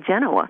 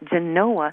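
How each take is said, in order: First: The stress falls on the first syllable. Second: The stress falls on the second syllable. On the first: This is the pronunciation outsiders assume. The speaker calls it wrong. "a lot of people automatically, subconsciously think, oh, it must be Genoa" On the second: This is the pronunciation the locals use. The speaker calls it right. "But it's Genoa"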